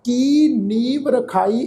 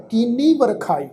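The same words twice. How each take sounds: First: ਕੀ alone, then ਨੀਵ, then ਰਖਾਈ; ਕੀ cut off from ਨੀਵ, ਰਖਾਈ a separate word; wrong word split. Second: ਕੀਨੀ as one word, then ਵਰਖਾਈ; correct word split. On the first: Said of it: "ਇਹ ਪਾਠ ਨਹੀਂ ਹੈ". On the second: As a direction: join ਕੀਨੀ and start ਵਰਖਾਈ on the ਵ. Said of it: "ਇਹ ਸ਼ਬਦ ਦਾ ਪਾਠ ਹੈ". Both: Shown as a demonstration.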